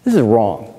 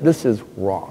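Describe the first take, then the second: First: Said in the usual way. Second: Quiet. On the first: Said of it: "the difference between right and wrong". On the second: Real, not acted.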